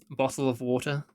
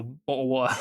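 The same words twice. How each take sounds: First: "bottle of water" with the t's sounded clearly; emphasised consonants. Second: Mock British "bottle of water" with dropped t's; exaggerated British glottal stops in "bottle of water". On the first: Showing viewers careful emphasis, t's pronounced in "bottle of water". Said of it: "loads of emphasis on certain things". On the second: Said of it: "think all British people sound like that". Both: Shown as a demonstration.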